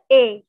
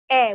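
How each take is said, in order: First: The vowel is said lax and soft. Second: The vowel is said crisp and firm. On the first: The speaker calls it wrong. "bukan E" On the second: The speaker calls it right. "E-nya itu agak tegas"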